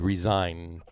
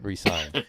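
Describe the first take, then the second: First: The middle consonant is a buzzing z sound. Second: The middle consonant is a hissing s sound. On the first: He would quit. The speaker calls it right. "I would put a, a hard z on the s in that word resigned" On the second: He would sign again. The speaker calls it wrong.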